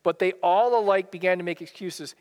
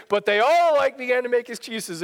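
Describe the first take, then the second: First: Said in the usual way. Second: Put-on German accent. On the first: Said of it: "He would quote that". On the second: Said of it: "in his thick German accent".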